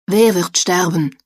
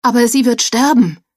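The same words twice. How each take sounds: First: Said in the usual way. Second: High, loud horrified cry. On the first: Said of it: "fragte Albert". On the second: A narrator's reading. Joel on his knees warns the others, horrified high cry. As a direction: cry out in panic that she will die. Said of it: "mit Entsetzen auf".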